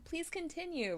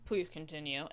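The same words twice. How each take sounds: First: It is said with lively enthusiasm. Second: It is said in a flat monotone. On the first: It will keep the conversation going. The speaker calls it right. "With enthusiasm" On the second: It will not keep the conversation going. The speaker calls it wrong. "in like a very flat monotone"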